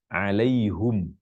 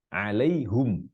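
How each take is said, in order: First: It ends in hum, with u before m. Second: It ends in hum, with u before m.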